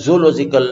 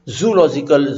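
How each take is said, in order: First: "zoological" begun with zo, O's not merged as zoo; correct pronunciation. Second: "zoological" begun with zoo, as one syllable; mispronunciation. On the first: Teacher giving the model to students, "zoological" pronounced zo-ological. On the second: Teacher contrasting the common slip, "zoological" pronounced zoo-logical. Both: Shown as a demonstration. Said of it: "the two O's should be separated".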